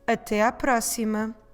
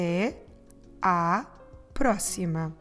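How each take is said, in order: First: It is said at a quicker pace. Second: It is said at a slower pace.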